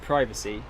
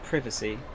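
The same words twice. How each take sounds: First: The first vowel is a long i sound. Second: The first vowel is a short i sound.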